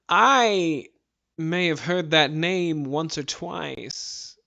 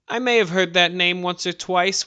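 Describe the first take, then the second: First: It is said in a put-on character voice. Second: It is said in the speaker's normal voice.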